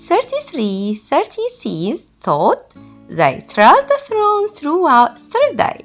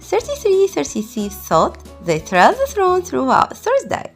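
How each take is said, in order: First: It is said at a slow pace. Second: It is said at a fast pace. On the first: "Let's do it slowly" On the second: "Let's do it faster"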